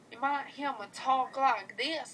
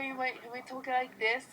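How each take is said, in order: First: It is spoken in a Southern US accent. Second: It is spoken in a Northern US accent. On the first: "like a little hick from the South" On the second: "kind of a northern accent"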